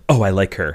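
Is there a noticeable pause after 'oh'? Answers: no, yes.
no. The line runs on with no real pause. The line is simply delivered. The speaker calls it wrong. "Instead of"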